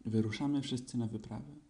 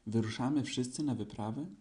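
First: Said in the usual way. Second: Mildly excited, lifting at the end of WYPRAWĘ; eager question. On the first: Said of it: "odparł Krzyś". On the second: A narrator's reading. Pooh asking about the expedition, mildly eager, WYPRAWĘ rising. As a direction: ask it with a touch of awe, WYPRAWĘ rising. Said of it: "spytał Puchatek z przejęciem".

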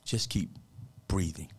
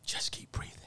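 First: Said in the usual way. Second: Soft, breath-filled near whisper; quiet, earnest encouragement; hushed advice. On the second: Real, not acted. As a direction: let the voice drop to a whisper. Softer repeat of the advice.

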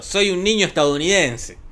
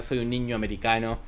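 First: The correct line, said higher and louder; proudly correcting "estadounidense"; emphatic correct version. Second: Said in the usual way. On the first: Shown as a demonstration. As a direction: stress the right word for emphasis, estadounidense. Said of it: "Humberto hubiese dicho". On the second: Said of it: "volvió a poner".

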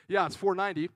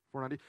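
First: "four ninety" firmer, with a falling end; confirming. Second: "Four ninety" as a tentative check; questioning. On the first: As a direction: settle "four ninety" as a sure answer. Confirms the sum just questioned. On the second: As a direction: ask "Four ninety" unsurely, seeking confirmation. Checks sum before confirming it. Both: Real, not acted.

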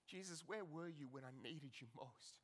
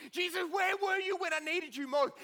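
First: Much softer, low, almost to himself; hushed lament. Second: Loud, high desperate question; anguished cry. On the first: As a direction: ask it quietly after the outburst. Same question, hushed. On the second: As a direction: shout it up at Jesus in grief. Martha crying out to Jesus. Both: Acted.

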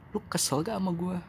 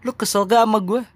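First: Softer, gentler take of the question, "lu" leaned on; softer asking. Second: Higher, louder pointed question, "gak" stretched; asking loudly. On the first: Host gently asks the listener if they're upset, softly. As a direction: ask it quietly, almost checking in. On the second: Host asks the listener if they're upset, raised and loud. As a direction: demand it out loud, pitch up high. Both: Pretend. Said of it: "Biarkan gua yang nanya ke lu".

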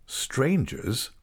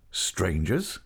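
First: "Strangers" starting higher, then falling; echoed disbelief. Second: "Strangers" with a rising end; questioning echo. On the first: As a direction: echo "Strangers" with a falling tune. Echoes her word, taken aback. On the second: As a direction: ask "Strangers" again, lifting the last syllable. Repeats it as a question. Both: A narrator's reading.

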